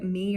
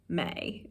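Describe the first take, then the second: First: The vowel is a plain 'ee' sound. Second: The vowel slips into an 'ay' sound. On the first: "this Amer perfect American accent" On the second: "their accents would break"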